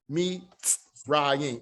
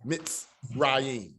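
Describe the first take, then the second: First: Me, ts, rayim, each bit separate, an open me with ts cut off; deliberately wrong me-ts-rayim; wrong split. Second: Mitz as one closed syllable, then rayim; correct syllables. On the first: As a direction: pronounce it as three broken pieces, me ts rayim. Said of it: "it's not like you're trying to say". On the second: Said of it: "It's mitz". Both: Shown as a demonstration.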